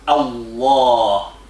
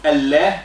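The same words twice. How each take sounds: First: The L sound is thick and heavy. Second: The L sound is thin and light. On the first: "it become thick for greatness of Allah" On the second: "instead of Allah"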